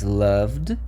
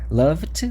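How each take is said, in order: First: The word ends with a d sound. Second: The word ends with a t sound. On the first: The speaker calls it right. "mas loved funciona" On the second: The speaker calls it wrong. "Tenta falar loved com som T para você ver que não funciona. Loved não funciona"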